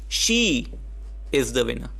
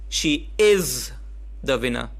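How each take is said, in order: First: The word she carries the emphasis. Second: The word is carries the emphasis.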